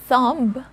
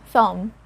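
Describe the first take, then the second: First: A b sound is pronounced at the end. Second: No b sound is pronounced at the end. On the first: The speaker calls it wrong. "So it's not thumb" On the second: The speaker calls it right. "It's thumb"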